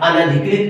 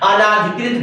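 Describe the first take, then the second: First: It has a short 'a' after 'an'. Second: It has a long 'aa' after 'an'. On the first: The speaker calls it right. "अनधिकृत एकदम सही है" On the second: The speaker calls it wrong. "अनाधिकृत गलत हो गया"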